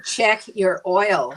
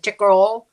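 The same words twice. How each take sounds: First: Slow, separated words; slowly spelled out. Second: Higher, louder run-together Texas words; West Texas accent. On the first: Decoding the gas station man's words, slow and distinct. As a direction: space out each word so it is understood. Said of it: "finally, I said". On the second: Gas station man offering service, thick West Texas accent. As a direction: slur "Chickarole" into one Texan word. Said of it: "this guy said". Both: Retold or imitated.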